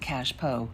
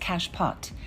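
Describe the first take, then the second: First: The word ends without a T sound. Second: The word ends with a T sound. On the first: The speaker calls it right. "So what is a cashpo?" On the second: The speaker calls it wrong. "Frequently mispronounced as cache pot"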